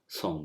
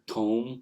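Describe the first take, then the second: First: The word begins with an s sound. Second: The word begins with a th sound. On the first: This is another Hijazi pronunciation. "and some will give it a sound as som" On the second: This is the Najdi pronunciation. "with the with the t- th sound. ... that's the Najdi pronunciation"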